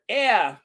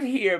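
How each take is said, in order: First: "yeah" said as British "'ere", no H; "yeah" as an open British "eh-uh"; dropped H. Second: Said in the usual way. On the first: Shown as a demonstration. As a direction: say "yeah" as a mock-British "here" without its H. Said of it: "drop that consonant from the beginning". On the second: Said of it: "Not here, but yeah".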